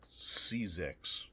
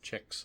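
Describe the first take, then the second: First: "Czechs" said as two syllables, SEE-zecks; mistaken spelling pronunciation. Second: "Czechs" said as one syllable, CHECKS; lower-key "Czechs", with an opening CH; corrected pronunciation. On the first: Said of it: "Czechs, I guess is how that's pronounced". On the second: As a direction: say "Czechs" just like "checks", softer. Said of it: "I guess is how that's pronounced". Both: Shown as a demonstration.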